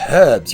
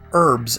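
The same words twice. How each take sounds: First: The word starts with a clear h sound. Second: The word starts with a vowel, no h sound.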